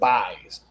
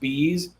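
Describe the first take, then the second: First: The vowel is an 'eye' sound. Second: The vowel is a long 'ee' sound. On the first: The speaker calls it wrong. "people pronounce it buys" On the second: The speaker calls it right. "It's pronounced bees"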